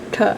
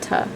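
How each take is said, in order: First: The T is made with the tongue curled back. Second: The T is made at the alveolar ridge. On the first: The speaker calls it right. "it's farther back. It should sound more like a T" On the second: The speaker calls it wrong. "rather than a T"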